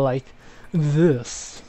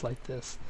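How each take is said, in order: First: It is said in an impression of Lucian. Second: It is said in his normal voice.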